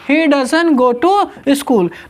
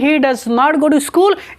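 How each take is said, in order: First: Does and not merge into one short word. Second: Does and not are said as two words. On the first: "speaking में क्या होता है कि हम इसको short में बोलते हैं" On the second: "एक तरीका तो ये सही ही है"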